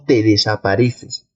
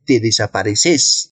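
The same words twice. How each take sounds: First: Said in the usual way. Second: "desapareces" stressed on its last syllable, de-sa-pa-re-CES; regional stress shift. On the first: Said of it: "tal cual". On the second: Shown as a demonstration. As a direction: end "desapareces" on a stressed voseo CÉS. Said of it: "cuando hay esta variación de pronunciación". («desapareces» con acento en la última sílaba: desapareCÉS)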